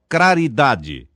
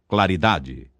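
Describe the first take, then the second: First: An R sound replaces the L after the C. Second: An L sound follows the C. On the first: The speaker calls it wrong. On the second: The speaker calls it right.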